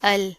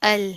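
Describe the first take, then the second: No difference in how they are said.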